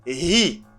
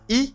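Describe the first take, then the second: First: The word starts with an audible h sound. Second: The word starts directly with a vowel sound. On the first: The speaker calls it right. "you stress the H" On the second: The speaker calls it wrong. "not E"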